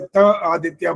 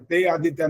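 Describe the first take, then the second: First: The first word is said as short 'ta'. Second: The first word is said as 'te'. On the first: The speaker calls it right. "इसलिए त आदित्य बोला जाएगा" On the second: The speaker calls it wrong. "ते आदित्य नहीं बोला जाएगा"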